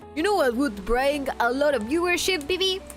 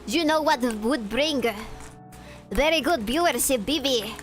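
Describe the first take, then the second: First: It is said in the speaker's plain accent. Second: It is said in a put-on Russian accent.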